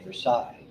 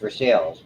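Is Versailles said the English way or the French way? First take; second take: French; English. First: Versailles is said with a French pronunciation. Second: Versailles is said with an English pronunciation. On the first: "he used to say Versailles. He was living in France" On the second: "my son used to live in North Versailles"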